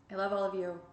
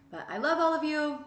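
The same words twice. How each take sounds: First: Settled, sincere affection; plain sincere love; sincere repeat. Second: High, loud burst of affection; big excited declaration of love; loving exclamation. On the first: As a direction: say it again, calm and meant. Repeated softer. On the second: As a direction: gush love at the audience. Affectionate sign-off. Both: Real, not acted.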